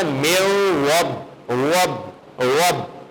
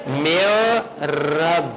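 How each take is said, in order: First: "وب" repeated slowly with a thick, heavy opening sound; demonstrated heavy R. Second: Very slow chanted "میو رب" with a light, held R; thin, light R. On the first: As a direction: show "میو وب" with a full-mouthed R, in separate bursts. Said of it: "ایک اور غلطی بھی میں نے کی ہے". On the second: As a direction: stretch "میو رب" and keep the R thin. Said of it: "باریک پڑھنا چاہیے تھا". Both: Shown as a demonstration.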